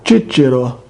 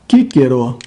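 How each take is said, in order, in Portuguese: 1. Lê-se na pronúncia latina eclesiástica. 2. Lê-se na pronúncia latina restaurada. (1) "Pronúncia eclesiástica romana" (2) "a pronúncia restaurada"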